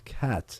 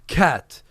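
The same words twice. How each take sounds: First: The word starts gently and is said softly. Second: The word is pushed out with tense force. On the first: The speaker calls it right. "very softly" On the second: The speaker calls it wrong. "don't fight it. Don't go"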